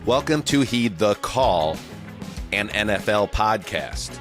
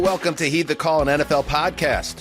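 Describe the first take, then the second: First: It is said at a slow pace. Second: It is said at a quick pace.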